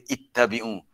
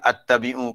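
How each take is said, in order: First: The word begins with an 'i' vowel. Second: The word begins with an 'a' vowel. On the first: The speaker calls it right. "Jawapannya kena baca ittabi'u" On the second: The speaker calls it wrong. "dia orang keliru nak baca attabi'u"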